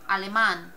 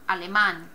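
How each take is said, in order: No difference in how they are said.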